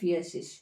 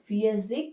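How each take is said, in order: First: The word ends with a soft sh sound. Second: The word ends with a hard k sound. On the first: "ಎಸ್ ಥರನೂ ಹೇಳ್ತಾರೆ" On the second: "ಗೆ ಥರನೂ ಬರುತ್ತೆ"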